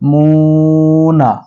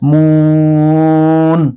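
First: It ends on a short vowel, unstretched. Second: The vowel is stretched and the ending is dropped. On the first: The reader continues without stopping. "কিন্তু যদি আমরা না টানতাম তাহলে কি হতো?" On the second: The reader stops at this word. "যদি থামি ... তিন আলিফ টানবো"

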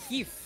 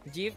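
First: The word is said with a Spanish pronunciation. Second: The word is said with an English pronunciation. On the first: The word is treated as a Spanish term. "si es en español debería ser GIF" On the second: The word is treated as a foreign term. "si es extranjero debería ser GIF"

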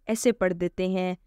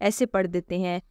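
Both takes have the same delivery.

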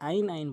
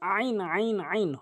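First: It begins with a plain vowel, no throat pressure. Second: It begins with a squeezed sound from mid-throat. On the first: The speaker calls it wrong. "এটি আইন আইন বলা যাবে না" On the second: The speaker calls it right. "হলকের মাঝখান থেকে চাপ দিয়ে বলতে হবে"

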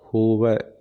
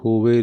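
First: The word ends in an 'ai' vowel. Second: The word ends in an 'e' vowel. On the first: The speaker calls it right. "ਵਾਵੇ 'ਤੇ ਦੁਲਾਵਾਂ ਲੱਗੀਆਂ" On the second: The speaker calls it wrong. "ਹੋਵੇ ਨਹੀਂ ਕਹਿਣਾ"

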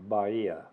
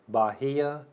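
First: The H sound is silent in the middle. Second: The H sound is pronounced in the middle. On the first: The speaker calls it right. "it's actually Bahia, because the H is silent" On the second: The speaker calls it wrong. "A lot of people want to say Bahia"

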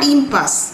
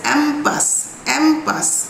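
First: The word begins with an 'im' sound. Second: The word begins with an open 'am' sound. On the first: It reads the word as if it were English. The speaker calls it wrong. "Not ইম্পাস" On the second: It keeps the French pronunciation. The speaker calls it right. "You will pronounce it as অ্যাম্পাস"

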